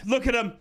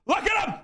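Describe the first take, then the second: First: Said in the usual way. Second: Much higher, excited exclamation; excited shout. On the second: Real, not acted. Fan admiring his player, high excited shout. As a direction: burst out high in delight.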